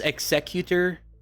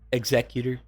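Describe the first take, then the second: First: It is said like the starship name. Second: It is said unlike the starship name. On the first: The speaker calls it wrong. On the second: The speaker calls it right.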